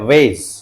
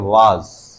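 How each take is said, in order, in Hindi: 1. यह स्वर 'ay' जैसा लगता है। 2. यह स्वर 'ah' जैसा लगता है। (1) "दो इसके प्रोनाउंसिएशन, एक तो है वेज" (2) "और एक है वाज"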